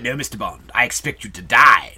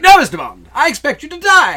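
First: Low, menacing parody villain; dramatic Goldfinger. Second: Loud, high, off-the-cuff villain reply; flippant Goldfinger. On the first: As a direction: say it low and dramatic, punching the end. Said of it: "We always think of it". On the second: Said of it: "kind of off the cuff and flippant". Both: Shown as a demonstration.

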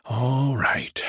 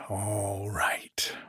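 First: Said in the usual way. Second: Hushed whispered repeat. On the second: Acted. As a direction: drop to a whisper, half to himself. Landlord repeats himself, then whispers.

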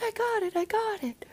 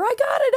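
First: High, hushed excited whisper; quiet squeal of joy; whispered cheer. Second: High shouted cheer; excited kid cheering; loud cheer. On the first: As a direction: cheer under your breath. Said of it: "Be a little quieter". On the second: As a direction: burst out with joy. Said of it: "she does a little cheer". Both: Retold or imitated.

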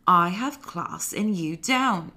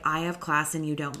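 First: Slow, drawn-out put-on British accent. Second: Said in the usual way. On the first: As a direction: deliver a slow put-down in wobbly British, drifting Australian. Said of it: "sometimes my British accent becomes Australian". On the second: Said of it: "The, like, ... vibe".

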